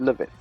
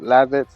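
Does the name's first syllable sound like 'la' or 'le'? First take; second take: le; la. First: The first syllable is said with an 'e' vowel. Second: The first syllable is said with an 'a' vowel. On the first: This is the speaker's own chosen way to say it. "I choose to pronounce it Levitz" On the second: This is how most people say the name. "Most people pronounce it Lavitz"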